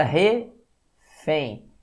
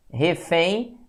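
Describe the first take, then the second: First: "refém" split slowly, re, pause, fém; separado em sílabas. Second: Said in the usual way. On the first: Shown as a demonstration. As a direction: break "refém" into two slow syllables. ("refém" sílaba por sílaba, com pausa) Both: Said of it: "separação silábica".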